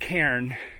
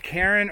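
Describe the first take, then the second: First: The word is said with one syllable. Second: The word is said with two syllables. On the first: The speaker calls it right. "It's one syllable" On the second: The speaker calls it wrong. "the Karen's like the person's name"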